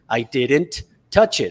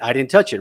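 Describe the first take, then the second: First: Each word is said fully and separately. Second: The sounds are dropped and run together. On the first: This is how learners are taught it. "Normally it would be" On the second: This is how native speakers really talk. "the way native speakers drop sounds, the way native speakers connect sounds"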